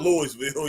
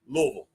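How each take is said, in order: First: It is pronounced the way tourists say it. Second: It is pronounced the way locals say it. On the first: The speaker calls it wrong. "not Louisville" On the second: The speaker calls it right. "they say it differently than the tourists"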